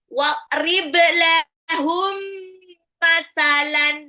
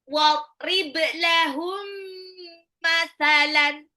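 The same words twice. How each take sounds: First: The m sound is held long and nasal. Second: The m sound is held long and nasal.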